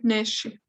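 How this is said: It is said with an sh sound before the i. This is the northern way of saying it. "en el norte decimos mucho neshi. Nos gustamos mucho ese sonido de sh"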